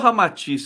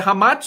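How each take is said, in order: First: The name is said with three syllables. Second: The name is said with two syllables. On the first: The speaker calls it right. "É Ramatiz" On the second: The speaker calls it wrong. "é Ramats ou Ramatiz?"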